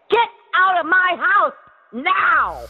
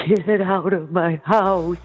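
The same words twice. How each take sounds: First: Commanding shout. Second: Slow, meek and unsure; timid. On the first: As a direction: order them out like the boss. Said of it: "That's the way you gotta talk to them". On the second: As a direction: say it like you're scared of them. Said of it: "you can't just say". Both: Shown as a demonstration.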